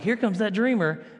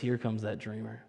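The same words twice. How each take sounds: First: It sounds admiring, like a compliment. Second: It sounds sneering and contemptuous.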